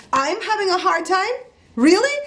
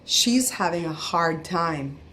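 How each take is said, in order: First: High-pitched, incredulous comeback; indignant disbelief. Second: Slow, measured retold remark; cashier's remark imitated. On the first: Retold or imitated. Customer repeating the cashier's remark, high indignant disbelief. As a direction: throw the words back high, as an outraged question. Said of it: "So I, I lost it". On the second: Cashier to her boss about the customer, slow and measured. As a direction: say it slowly, spacing out each word. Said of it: "she looked at her boss and said".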